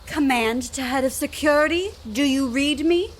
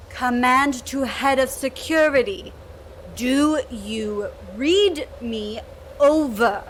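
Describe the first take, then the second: First: Said in the usual way. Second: Slow, crackly radio transmission; crackly military radio. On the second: Acted. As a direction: speak through a crackling radio. Repeats call over radio.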